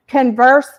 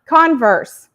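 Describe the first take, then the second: First: Converse with stress on the second syllable, kun-VERSE. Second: Converse with stress on the first syllable, KON-verse; stress on CON. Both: Shown as a demonstration. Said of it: "Like, um".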